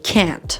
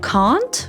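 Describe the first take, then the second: First: The word is said in an American accent. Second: The word is said in a British accent. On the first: "American people mostly say can't" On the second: "British people pronounce it like can't"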